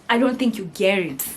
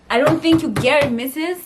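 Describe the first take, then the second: First: Said in the usual way. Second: Higher, louder insistent retort; emphatic retort. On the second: Retold or imitated. Retelling arguing with her mom, higher and louder insistence. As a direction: push back hard on mom. Repeats line with more force.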